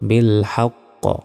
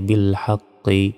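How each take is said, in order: First: The final q is stopped with an echoing bounce. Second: The final sound ends with a short i vowel. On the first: The reading stops at this word. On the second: The reading continues without stopping.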